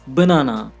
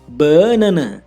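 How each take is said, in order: First: The stress is on the second syllable. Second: The stress is on the first syllable.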